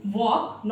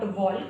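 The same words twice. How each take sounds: First: Walk with the L silent; correct pronunciation. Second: Walk with the L sounded before K; wrong pronunciation. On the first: Teacher showing learners the right reading, L silent in walk. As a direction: go from vowel straight to K in walk. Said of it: "walk not walk". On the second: Teacher warning learners off a mistake, L voiced in walk. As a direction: voice the silent L in walk. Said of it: "not walk". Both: Shown as a demonstration.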